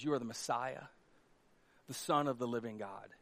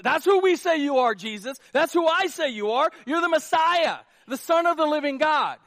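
First: Soft, low, reverent confession; Peter's quiet awe-struck confession to Jesus; hushed confession. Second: Higher and louder, a ringing declaration; preacher booming out Peter's confession; bold proclamation. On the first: Retold or imitated. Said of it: "And Peter says". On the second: Acted. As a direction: proclaim it to the whole room. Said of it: "preacher proclaiming the confession".

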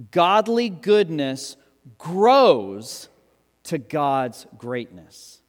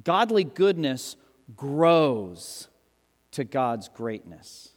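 First: Slow, with grows swelling loud and rising; preacher hammering home the key statement; emphasis on grows. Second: Very slow, each word spaced, fading at the end; slow emphatic repeat. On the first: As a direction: lean hard into GROWS, each word weighed. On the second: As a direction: say it again slowly and let it sink in. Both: Shown as a demonstration. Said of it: "Now look at the emphasis there".

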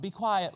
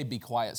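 First: Higher, mild little plea; soft request. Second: Understated, low-key stern try; half-hearted firm request; attempted sternness. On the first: Preacher mocks the soft translation, mildly. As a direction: say it too gently to be an order. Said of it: "that's not "be quiet". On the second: Preacher shows it cannot sound stern, half-heartedly. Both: Shown as a demonstration.

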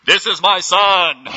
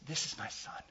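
First: Slow, huge, much louder and higher proclamation; God as a thundering megaphone; booming divine voice. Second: Soft whispered words of pride; tender fatherly whisper; proud whisper. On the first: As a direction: boom it out from the heavens. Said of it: "Was it". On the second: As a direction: whisper it like a father holding his child. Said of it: "with pride in his voice ... in a whisper". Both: Retold or imitated.

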